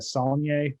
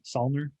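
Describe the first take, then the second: First: The name ends with a 'nyay' sound. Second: The name ends with an 'ner' sound. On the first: The speaker calls it right. "they pronounce it completely different" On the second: The speaker calls it wrong. "I thought it was"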